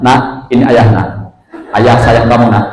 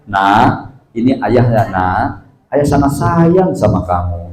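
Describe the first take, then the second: First: Said in the usual way. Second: Softer, slower, gentle lilting father's voice; tender and soothing. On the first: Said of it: "Ah, itu lempeng". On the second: Shown as a demonstration. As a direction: lull the child gently with rise and fall. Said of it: "Kan enak dengernya". (lembut dan mendayu-dayu)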